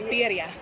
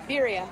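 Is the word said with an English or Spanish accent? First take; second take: Spanish; English. First: The word is said with a Spanish accent. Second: The word is said with an English accent.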